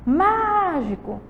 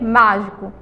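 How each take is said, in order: First: MÁGICO called high and slow, long MÁ; calling the word out. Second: Said in the usual way. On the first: Shown as a demonstration. Teacher shows pupils the stressed syllable, long high MÁ in mágico. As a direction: call "mágico", holding the first syllable. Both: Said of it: "Vamos chamar elas".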